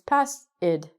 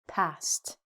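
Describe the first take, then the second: First: The ending is an extra 'id' syllable. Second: The ending is a single 't' sound. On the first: The speaker calls it wrong. "your brain thinks pass id" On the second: The speaker calls it right. "we say past"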